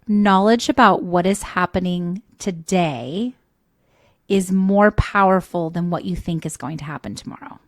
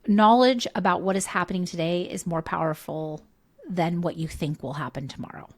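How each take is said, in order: First: It is said slowly. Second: It is said at a normal pace.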